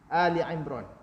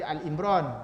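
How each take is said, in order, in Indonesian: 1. Bagian pertama dibaca Ali yang dua suku kata. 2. Bagian pertama dibaca Al yang pendek.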